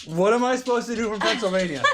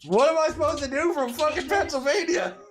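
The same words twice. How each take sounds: First: The same helpless cry, higher, through a laugh; laughing repeat. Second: High, loud helpless cry at the dogs; exasperated yell. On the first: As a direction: say it again, cracking up. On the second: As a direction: throw up your hands and yell it up high. Helpless far away, dogs misbehaving. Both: Real, not acted.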